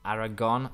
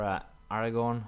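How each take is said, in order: First: "Aragon" said with no r before the final n, a bit louder; correcting himself. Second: "Aragorn" said like the Tolkien hero, with an r before the final n; mistaken place name. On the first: Gamer correcting his own slip, firm self-correction. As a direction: fix the name firmly: "Aragon". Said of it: "Not Aragon, not Aragorn". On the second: Gamer naming his war target, wrong name said plainly. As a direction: slip into "Aragorn" with the extra r sound. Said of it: "not Aragorn". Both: Real, not acted.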